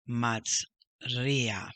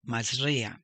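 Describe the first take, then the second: First: MAZ, pause, RIA; slower maz ... ria for learners; split word. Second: MAZRIA in one smooth go; quick model of "mazria"; whole word. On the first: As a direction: draw Mazria out in two parts. Teacher repeats word split up. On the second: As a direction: say mazria joined up. Teacher models next word. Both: Shown as a demonstration.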